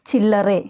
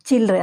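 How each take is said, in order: First: The word is said slowly with a full ending. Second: The word is said quickly with a reduced ending.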